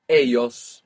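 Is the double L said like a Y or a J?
Y. The double L sounds like a Y.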